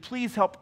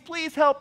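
First: It is said quieter and at lower pitch. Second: It is said louder and at higher pitch.

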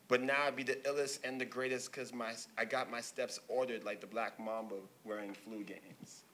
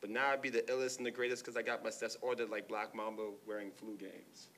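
First: The line is said slowly. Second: The line is said at normal speed.

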